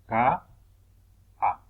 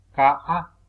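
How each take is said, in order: First: "ka, a" with a long gap between syllables. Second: Said in the usual way. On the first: Shown as a demonstration. Teacher separating syllables at the puso, "ka, a" syllable by syllable. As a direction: split "ka, a" into two isolated beats. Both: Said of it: "del puso al separar sílabas".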